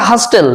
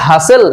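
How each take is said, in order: First: হাস্টেল with the t sounded; wrong pronunciation. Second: হাসেল with the t silent; correct pronunciation. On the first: Teacher showing a common mistake, হাস্টেল with sounded t. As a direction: say হাস্টেল wrongly, a clear t after s. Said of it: "আমরা ভুল করে". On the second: Teacher giving English for a commotion, হাসেল with silent t. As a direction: say হাসেল, s straight into the vowel. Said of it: "উচ্চারণটা হবে". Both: Shown as a demonstration.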